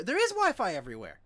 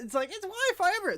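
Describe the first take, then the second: First: "is" leaned on, loud and high; stress on IS. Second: Fast, high, sarcastic take on "Wi-Fi everywhere"; rapid, scornful parroting; mocking restatement. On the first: Shown as a demonstration. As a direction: hit the word "is" to correct the claim. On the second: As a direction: toss off "it's Wi-Fi everywhere" quickly and high.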